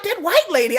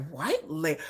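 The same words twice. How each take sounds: First: High, loud, pointed WHITE LADY; emphatic insistence. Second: Softer, puzzled "white lady"; puzzled echo. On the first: Kids point out the white lady to her, insistent. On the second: Child repeats the kids' words back, quietly puzzled. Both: Retold or imitated.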